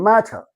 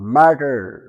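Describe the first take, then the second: First: It is said in a British accent. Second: It is said in an American accent. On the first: "British వాళ్ళు అవుతారు మ్యాటర్" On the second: "Americans అవుతారు మ్యాటర్"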